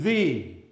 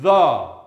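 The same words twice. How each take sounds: First: It is stressed, with a long 'thee' vowel. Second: It has a short, weak 'thuh' vowel.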